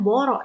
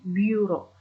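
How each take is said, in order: First: The first vowel is a plain back vowel. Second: The first vowel is a fronted 'ü' sound. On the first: The speaker calls it wrong. "bukan boro ya" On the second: The speaker calls it right. "tapi bureau"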